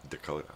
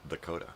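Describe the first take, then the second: First: The word begins with a D sound. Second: The same.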